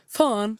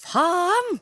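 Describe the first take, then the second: First: "faen" said the Bergen way, with a short flat fall; Bergen-style "faen", a plain short curse; Bergen swearword. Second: "faen" said the Oslo way, higher pitch and louder; Oslo-style "faen", pitched up with a falling end; East Norwegian swearword. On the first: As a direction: demo how people from Bergen say "faen". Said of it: "bergensere ... sier". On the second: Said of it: "så sier jeg". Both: Shown as a demonstration.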